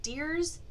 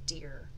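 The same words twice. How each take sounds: First: Deers with a rising question; testing Deers aloud; trying deers. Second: Deer lower and falling; trying deer. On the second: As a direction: settle on deer. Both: Shown as a demonstration. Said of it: "do we say deers or do we say deer".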